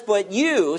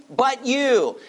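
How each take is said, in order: First: Said in the usual way. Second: But you, with the weight landing on you; stress on you. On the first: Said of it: "The idea here literally is you". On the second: Shown as a demonstration. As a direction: point the word you out emphatically. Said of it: "He's pointing out the disciples emphatically".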